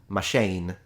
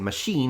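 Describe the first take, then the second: First: The last vowel sounds like 'ay'. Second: The last vowel sounds like 'ee'. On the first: An imagined future pronunciation. "E becomes A. So it's now pronounced machine" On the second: The present-day pronunciation. "if they hear us say machine"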